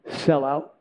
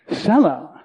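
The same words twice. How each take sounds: First: Soft, low and hushed; a quiet word from above; quiet divine voice. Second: Said in the usual way. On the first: Retold or imitated. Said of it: "I just heard this one word". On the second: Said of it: "it just kinda hit me".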